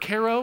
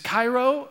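First: It is said like the Illinois town. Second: It is not said like the Illinois town.

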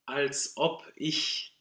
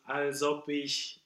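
First: Each vowel-initial word starts with a glottal stop. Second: The words run together without glottal stops. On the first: The meaning of the words comes through clearly. The speaker calls it right. "So we need a lot of glottals here" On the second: The meaning of the words gets lost. The speaker calls it wrong. "If you do als ob ich, it's nothing"

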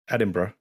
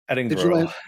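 First: The name is said without an American pronunciation. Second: The name is said with an American pronunciation. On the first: The speaker calls it right. "what's the correct pronunciation?" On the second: The speaker calls it wrong. "I Americanized that pronunciation"

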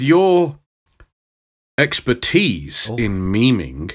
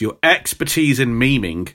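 First: It is said slowly with a grand, weighty delivery. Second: It is said at a plain, ordinary pace.

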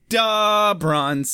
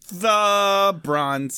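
First: 'The' starts with a d sound. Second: 'The' starts with a clear th sound. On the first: The speaker calls it right. "That's better" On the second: The speaker calls it wrong. "I pronounced the TH in that far too well"

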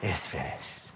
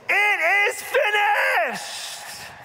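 First: It is said quietly and weakly. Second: It is shouted loudly with full breath.

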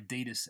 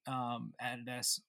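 First: It is said the North American way. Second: It is said the local, non-North-American way.

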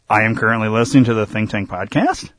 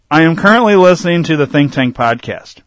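First: The voice rises at the end. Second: The voice falls at the end. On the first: It sounds like a question. The speaker calls it wrong. "You wouldn't say, ... you go up in inflection because it's a question mark. It's not, though. It doesn't work" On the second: It is a plain statement. The speaker calls it right. "You would say it like that, because it ends with a period"

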